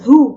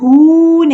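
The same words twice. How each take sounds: First: The vowel is kept short. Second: The vowel is drawn out long. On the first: The speaker calls it right. "हरकत को लंबा नहीं करते" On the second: The speaker calls it wrong. "इसको हु नहीं पढ़ना"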